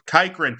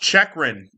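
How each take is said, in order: First: The surname is said as Kykrin. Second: The surname is said as Chekrin. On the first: The speaker calls it wrong. "I've been calling him Jacob Kykrin" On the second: The speaker calls it right. "His last name is pronounced Chekrin"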